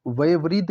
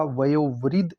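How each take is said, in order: First: वयोवृद्ध as "vaye-vriddh"; wrong pronunciation. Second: वयोवृद्ध as "vayo-vriddh"; correct pronunciation. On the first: Teacher repeating the error, वयोवृद्ध as "vaye-vriddh". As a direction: replace the o in वयोवृद्ध with e. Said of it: "नहीं होता". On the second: Teacher correcting the word, वयोवृद्ध with clear o. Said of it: "ऐसे सही लिखा जाता". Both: Shown as a demonstration.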